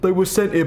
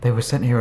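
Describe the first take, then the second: First: It is read in a normal full voice. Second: It is read in a hushed, quiet voice.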